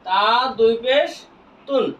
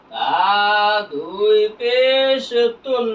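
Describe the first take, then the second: First: Said in the usual way. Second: Very slow, vowels held long; measured recitation drill with long-held syllables; drawn-out spelling. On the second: Shown as a demonstration. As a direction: stretch পেশ before landing on তুন. Same spelling repeated drawn out.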